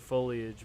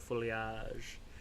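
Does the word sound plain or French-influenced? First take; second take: plain; French-influenced. First: It is said in the speaker's usual plain way. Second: It is said with a French-influenced pronunciation.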